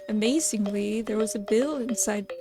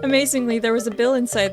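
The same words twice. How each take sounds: First: It is said in a put-on character voice. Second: It is said in the speaker's normal voice. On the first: The speaker calls it wrong. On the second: The speaker calls it right.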